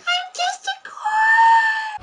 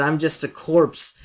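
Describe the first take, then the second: First: It is yelled in a very high pitch. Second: It is said in a plain voice.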